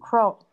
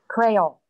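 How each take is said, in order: First: It is said like 'coal', with no r sound. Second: It is said like 'creole', with an r sound. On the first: The speaker calls it right. "I think it's coal" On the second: The speaker calls it wrong. "I hope that's the right pronunciation on that"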